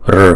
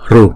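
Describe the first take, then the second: First: The r is said with no vowel after it. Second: The r is followed by a u sound. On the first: "một số vùng miền khác họ đọc là r" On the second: "một số vùng miền họ đọc là ru"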